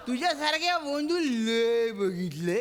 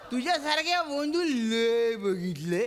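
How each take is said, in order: First: It is said in the Bankoti dialect. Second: It is said in the Bankoti dialect.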